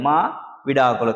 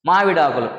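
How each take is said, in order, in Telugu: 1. మొదటి అక్షరం తర్వాత చిన్న విరామం ఉంది. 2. ఈ పదం విరామం లేకుండా సాఫీగా పలకబడింది.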